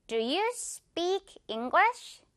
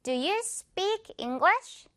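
First: Slow rhythmic drill. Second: "Do you speak English" stepped out beat by beat, higher and slow. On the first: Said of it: "지휘해주는 이 박자에 맞춰서". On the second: Teacher conducts the rhythm while students follow the beat. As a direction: put every word on the conducted beat. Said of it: "지휘해주는 이 박자에 맞춰서 다시". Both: Shown as a demonstration.

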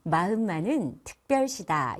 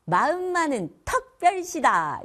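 First: Said in the usual way. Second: "턱별시다" with 어 instead of 으, slow and loud; 사투리식으로 "턱별시다"; dialect 어 for 으. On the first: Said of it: "이죠?". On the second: Shown as a demonstration. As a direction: say "턱별시다", the 으 of 특 flattened to 어. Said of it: "특별시의 으 발음을 어로 하는 사투리예요".

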